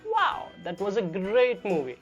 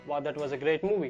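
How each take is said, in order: First: It is said with lively, varied pitch. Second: It is said in a flat, monotonous voice. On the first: The speaker calls it right. "प्रोसेडी के सही इस्तेमाल के साथ" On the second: The speaker calls it wrong. "ये काफ़ी ज़्यादा monotonic या काफ़ी ज़्यादा स्ट्रेट फॉरवर्ड सुनाई देता है"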